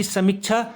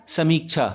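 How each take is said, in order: First: समीक्षा with short mi, rising; short-i misreading. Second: समीक्षा with long mee, falling. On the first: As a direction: clip the middle vowel of समीक्षा. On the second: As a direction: stretch the middle vowel of समीक्षा. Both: Shown as a demonstration. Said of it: "इसमें बड़ी की मात्रा आएगी".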